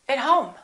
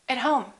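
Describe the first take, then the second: First: The word 'at' has a reduced vowel. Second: The same.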